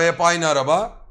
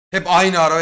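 First: Said in the usual way. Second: Aynı punched, first take louder; stress on aynı. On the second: Retold or imitated. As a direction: hit the word aynı hard, louder. Repeating for emphasis.

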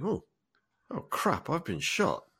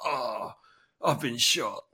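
First: Higher, understated dawning realisation; inner monologue. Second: Hammed-up movie death cry, drawn-out "oh"; mock dramatic. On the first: Acted. Man suddenly realising he's been shot, understated inner monologue. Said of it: "hear the monologue in his head". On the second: Character in an old film dramatically falling back shot, mock dramatic. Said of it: "dramatic, you know, there's blood".

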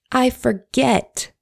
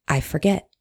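First: "I forget" high and slow, stress on "I"; drawn out "I forget". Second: Said in the usual way. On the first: Shown as a demonstration. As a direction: stretch "I forget" with a rising lament. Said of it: "Oh, Lordy".

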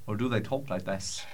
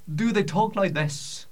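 First: Lower, softer mock Scottish voice; now try the second Scottish sound, low and soft; other Scottish voice demo. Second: Higher mock Scottish voice; Scottish voice demo. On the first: Comedian offering a second option, mock Scottish, lower and softer. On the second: Comedian asking how Scots talk, mock Scottish, higher. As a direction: show off one way a Scot might sound, higher. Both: Shown as a demonstration.

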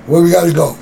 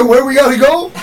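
First: Said in the usual way. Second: Higher, louder, rising eager question; eager repeat. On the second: Retold or imitated. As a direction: ask it ready to go right now. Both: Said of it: "That's what he said".

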